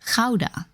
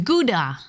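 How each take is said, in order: First: Gouda is said with a Dutch pronunciation. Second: Gouda is said with an English pronunciation. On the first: The speaker calls it right. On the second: The speaker calls it wrong.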